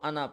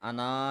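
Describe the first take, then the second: First: The final vowel is short, not drawn out. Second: The final vowel is drawn out long. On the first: The speaker calls it right. "इसको अना पढ़ते हैं" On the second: The speaker calls it wrong. "अना नहीं पढ़ते"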